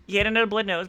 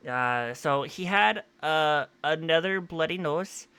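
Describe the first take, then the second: First: Said in the usual way. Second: Slow, drawn-out put-on accent on "another bloody nose"; drawling unplanned accent, unaware of it; odd put-on accent. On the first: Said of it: "I don't know why I'm talking like that". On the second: Real, not acted. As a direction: slip into a strange slow accent without meaning to. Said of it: "I don't know why I'm talking like that, this accent here".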